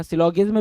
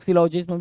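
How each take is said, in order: First: सिलोगिज्म with g as in "give"; hard g variant. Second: सिलोजिज्म with j as in "jam"; soft g variant. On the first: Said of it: "भी कुछ लोग बोलते हैं". (सिलोगिज्म में 'ग' बोलते हुए) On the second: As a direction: use a j sound in सिलोजिज्म. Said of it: "कुछ लोग सिलोजिज्म भी बोलते हैं". (सिलोजिज्म में 'ज' बोलते हुए) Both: Shown as a demonstration.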